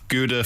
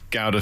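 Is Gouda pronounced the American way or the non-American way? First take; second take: American; non-American. First: The word is pronounced the American way. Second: The word is pronounced the non-American way. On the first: "Gouda for the Yanks" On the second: "Gouda for everyone else"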